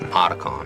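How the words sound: It is said with an American English pronunciation. "but American people say"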